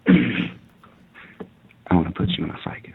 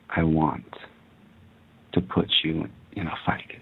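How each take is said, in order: First: It is whispered at a quicker pace. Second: It is whispered at a slower pace. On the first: "can you whisper" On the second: "A little bit slower, please"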